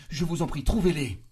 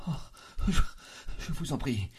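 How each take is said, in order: First: Loud, high anguished cry; rising to a pleading shout; frantic plea. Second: Halting, high-pitched begging; pained, faltering entreaty; anguished plea. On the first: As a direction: beg at full desperation. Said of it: "Elle s'exaltait". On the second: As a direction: gasp and stammer into the plea. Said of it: "une sorte de cri de souffrance". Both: A narrator's reading.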